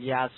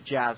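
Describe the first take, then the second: First: The word starts with a Y sound. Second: The word starts with a J sound. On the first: "I'm not sure if it's a silent J" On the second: "or is it Jazz?"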